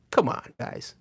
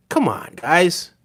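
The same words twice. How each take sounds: First: Softer, breathy whisper of the plea. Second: Said in the usual way. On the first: Real, not acted. Urging his viewers again, now in a whisper. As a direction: breathe it out under your voice.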